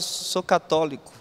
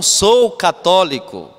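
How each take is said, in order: First: It is said in a low, quiet voice. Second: It is said in a firm, louder voice. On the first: The speaker is hesitant about the faith. The speaker calls it wrong. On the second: The speaker is convinced of the faith. The speaker calls it right.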